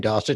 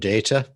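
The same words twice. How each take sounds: First: The word is said the listener's way. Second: The word is said the British way. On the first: "to you" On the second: "in the U K"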